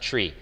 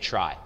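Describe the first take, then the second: First: The vowel is long 'ee', like 'free'. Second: The vowel is 'eye', like 'fly'. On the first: It comes from the word retrieval. The speaker calls it right. "he says it's pronounced tree" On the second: It keeps the word apart from the other tree. The speaker calls it wrong. "people will say try"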